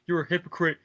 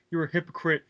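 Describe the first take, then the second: No difference in how they are said.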